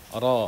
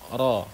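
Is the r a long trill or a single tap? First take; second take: single tap; single tap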